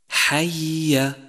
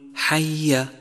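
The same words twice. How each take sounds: First: Both ya sounds are heard clearly. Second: The two ya sounds are merged together. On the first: The speaker calls it right. "يجب بيانه إذا جاء مكررا" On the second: The speaker calls it wrong. "وخطأ أن تقول حي"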